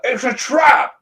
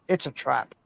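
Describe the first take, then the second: First: High, loud shouted warning; wedding objection shout. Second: Low, soft robotic alarm; a lower, softer machine voice; alarm clock voice. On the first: Pretend. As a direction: yell it across the church. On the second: Retold or imitated. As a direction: alarm clock droning the warning. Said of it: "your alarm should say".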